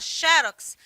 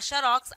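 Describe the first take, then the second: First: The stress is on the first syllable. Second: The stress is on the last syllable. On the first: "você tem que colocar um acento gráfico" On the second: "aí não tem acento gráfico"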